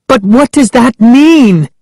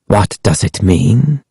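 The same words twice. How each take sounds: First: High, alarmed question; Sari crying out. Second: Said in the usual way. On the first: A narrator's reading. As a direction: cry it out in a frightened, high voice. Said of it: "Sari cried". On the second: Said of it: "Ahmed repeated".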